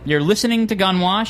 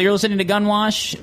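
First: The words are clearly and carefully enunciated. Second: The words are slurred and run together. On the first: The speaker calls it right. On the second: The speaker calls it wrong.

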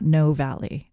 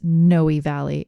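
First: The first word has one syllable. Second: The first word has two syllables. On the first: The speaker calls it wrong. "and not No Valley" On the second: The speaker calls it right. "it's pronounced Noe Valley"

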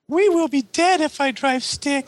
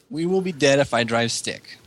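First: It is said in a put-on character voice. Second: It is said in a natural speaking voice.

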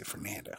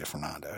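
First: The R sound is dropped. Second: The R sound is clearly pronounced. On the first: "she would kind of forget the R there" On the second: "She wouldn't say Fernando"

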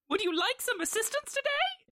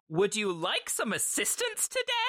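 First: It is said in an old-school Mickey Mouse voice. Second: It is not said in a Mickey Mouse voice.

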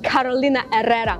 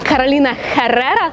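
First: Herrera begins with a vowel, no H sound. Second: Herrera begins with a strong H sound. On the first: The speaker calls it right. "На самом деле правильно будет" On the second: The speaker calls it wrong. "нет, неправильно, и даже звучит немножечко неприлично"

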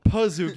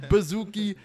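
First: The word begins with a P sound. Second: The word begins with a B sound. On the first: The speaker calls it right. "Pazuki with a P" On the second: The speaker calls it wrong. "He said it with a B every time"

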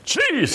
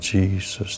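First: It is said like a dramatic evangelist. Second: It is said quietly and humbly.

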